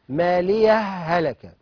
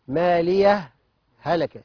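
First: The two words merge with no pause between. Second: A brief breathless pause separates the two words. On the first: "وفيها الادغام" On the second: "سكتة لطيفة إذا وصلت"

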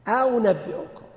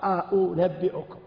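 First: The second glottal stop is softened toward a w sound. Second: Both glottal stops are pronounced clearly and fully. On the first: "سهل الهمزة الثانية قريبة من الواو" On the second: "حفص يقرأ أأنبئكم، همزة مفتوحة وهمزة مضمومة"

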